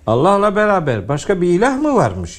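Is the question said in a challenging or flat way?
challenging. The question is said with challenging rhetorical emphasis. The speaker calls it right. "Cevabı dikte edecek şekilde"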